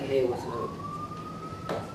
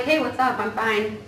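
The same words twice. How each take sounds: First: Much higher, softer, very slow offhand reply; flat brush-off. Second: Breezy brush-off. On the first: Coworker answering a greeting with dismissive slow mumble. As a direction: give a lazy, uninterested hello back. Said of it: "and you're like". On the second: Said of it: "And I'm like". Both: Retold or imitated.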